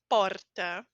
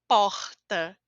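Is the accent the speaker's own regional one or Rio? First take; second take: regional; Rio. First: It is said in the speaker's regional accent. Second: It is said in a Rio de Janeiro accent.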